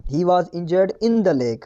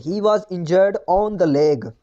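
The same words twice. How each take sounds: First: Very slow reading with in; slow corrected line. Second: Very slow reading of the faulty line; slow wrong example. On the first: Teacher slowly dictates the corrected sentence to class. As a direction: dictate each word for copying. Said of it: "यहाँ पर होगा in". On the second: Teacher slowly reads the wrong sentence to students. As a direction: read the mistake out word by word. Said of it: "error है". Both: Shown as a demonstration.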